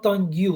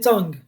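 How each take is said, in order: First: The ending is sounded as an extra syllable. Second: The ending is silent, giving one syllable. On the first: The speaker calls it wrong. "not tongue you" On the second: The speaker calls it right. "So we say tongue"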